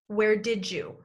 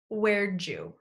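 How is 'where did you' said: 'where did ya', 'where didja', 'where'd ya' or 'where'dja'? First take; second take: where didja; where'dja. First: It is said as 'where didja', with 'did' and 'you' linked into 'didja'. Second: It is said as 'where'dja', with 'did' reduced to 'd' and linked into 'you'. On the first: "The second way we link and reduce did you to sound like did you?" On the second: "the fourth variation is where'd you?"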